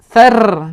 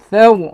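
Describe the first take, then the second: First: The R sound is thin and light. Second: The R sound is thick and heavy. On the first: The speaker calls it wrong. "tidak kita baca thar" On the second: The speaker calls it right. "kita tebalkan"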